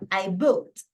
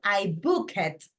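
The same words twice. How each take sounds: First: The ending is just a short t sound. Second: The ending is said as an extra syllable. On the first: The speaker calls it right. "Simplemente va como una T al final" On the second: The speaker calls it wrong. "Yo no digo I booked"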